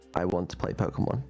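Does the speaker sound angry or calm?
calm. It is said in a calm tone.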